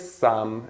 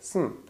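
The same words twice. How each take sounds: First: The word has a full, clear vowel. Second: The word is reduced with a weak vowel. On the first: The speaker calls it wrong. "We don't say some in a sentence" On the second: The speaker calls it right. "We say some"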